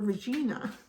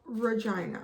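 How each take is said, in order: First: It is said the Latin way. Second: It is said the local Canadian way. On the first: It is the Latin word for queen. "the Latin word for queen" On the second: It names the capital of Saskatchewan. "that's how we pronounce it"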